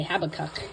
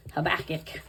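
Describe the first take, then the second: First: Habakkuk as HAB-uh-kuk, stress on the first syllable; preferred pronunciation. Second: Habakkuk as huh-BACK-ick, stress on the second syllable; reported pronunciation. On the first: Vlogger giving her favored way to say it, front-stressed. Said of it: "I like to say Habakkuk". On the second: Vlogger recalling how someone told her to say it, middle-stressed. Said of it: "someone told me once it was". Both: Shown as a demonstration.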